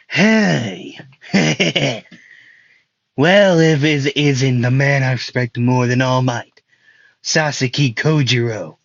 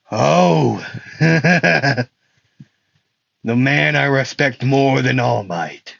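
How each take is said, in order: First: Hammed-up villain greeting with a cackle; raised opening, chuckle, relish the greeting; Stain. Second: Hammed-up villain with a chuckle; chuckle, then draw the words out slowly; Stain. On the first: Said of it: "he probably sounds more like that". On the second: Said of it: "he doesn't sound like that".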